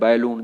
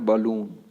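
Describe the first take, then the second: First: The first syllable sounds like 'bae'. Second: The first syllable sounds like 'buh'. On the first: The speaker calls it wrong. "ये तरीका गलत है" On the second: The speaker calls it right. "आपको बोलना है बलून"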